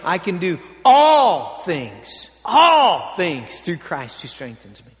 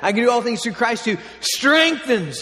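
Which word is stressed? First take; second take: all things; strengthens. First: The stress is on "all things". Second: The stress is on "strengthens".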